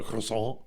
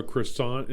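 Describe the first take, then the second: First: "croissant" French style, kwah-SAHN, no T at the end; "croissant" with a nasal French ending, T dropped; French "croissant", silent final T. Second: "croissant" said the English way, the T clearly sounded, kruh-SANT; "croissant" anglicized, hard T at the end; American "croissant", pronounce the final T. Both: Shown as a demonstration. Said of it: "ask for a croissant instead of a croissant".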